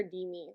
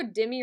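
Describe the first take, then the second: First: "Demi" said DEE-mee, long first vowel. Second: "Demi" said DIM-ee, short first vowel. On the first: Streamer checking a viewer's name, "Demi" as DEE-mee. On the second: Streamer checking a viewer's name, "Demi" as DIM-ee. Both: Shown as a demonstration. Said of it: "I always go Demi or Demi".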